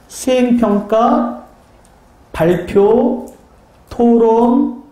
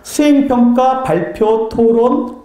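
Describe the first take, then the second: First: It is said slowly. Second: It is said at normal speed.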